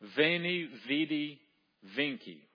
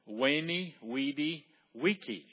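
First: Each word begins with a V sound. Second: Each word begins with a W sound.

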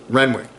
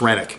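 First: A w sound is heard in the middle. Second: No w sound is heard in the middle. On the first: The speaker calls it wrong. "I've been pronouncing it wrong for 2 weeks" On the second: The speaker calls it right. "It's Rennick"

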